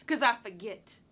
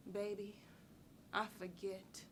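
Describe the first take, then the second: First: Firm, voiced close after an outburst; firm conclusion. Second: Soft, low and sparing, with pauses; sweet, quiet deflection. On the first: Woman closing the subject of her scars, firmly. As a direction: land it firmly, without softening. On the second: Acted. Woman sweetly fobbing off a man about her scars, quietly. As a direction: let it drop softly, almost to yourself.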